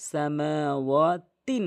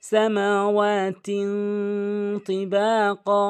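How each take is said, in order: First: "সামাওয়াতিন" with a clear n; common mispronunciation. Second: "সামাওয়াতিন" with a long nasal hum; correct ikhfa. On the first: Teacher shows the mistake, "সামাওয়াতিন" with plain n. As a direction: say "সামাওয়াতিন" with no nasal hold. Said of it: "যে ভুলটি করে". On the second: Teacher models ikhfa, "সামাওয়াতিন" hummed nasally. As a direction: chant "সামাওয়াতিন তিবাকা" higher and slow, holding the n in the nose. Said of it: "নাকের ভিতর নিয়ে পড়তে হবে". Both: Shown as a demonstration.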